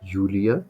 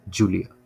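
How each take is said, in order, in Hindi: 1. इस नाम की शुरुआत Y की आवाज़ से होती है। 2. इस नाम की शुरुआत J की आवाज़ से होती है। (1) "एक्चुअली जर्मन में बोला जाता है" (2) "ये हम इसको क्या पढ़ते हैं"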